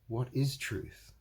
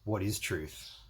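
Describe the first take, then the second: First: It sounds like a sincere, puzzled question. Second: It sounds weary and dismissive, not really asking. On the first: The asker genuinely does not know what truth is. "If it's the first one, what is truth? Like that. It means that he doesn't know it" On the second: Truth no longer matters amid so many lies. "the truth doesn't even matter anymore"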